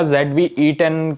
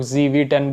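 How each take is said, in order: First: ज़ेड वी ई टेन said letter by letter as zed, vee, ee, ten; the Indian-English way, ज़ेड वी ई टेन as zed-vee-ee-ten; spelled-out model name. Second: ज़ी वी टेन with "zee" and the "e" dropped; quoting how others say it, ज़ी वी टेन as zee-vee-ten; other people's version. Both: Shown as a demonstration. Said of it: "कुछ लोग ज़ी वी टेन बोलते हैं".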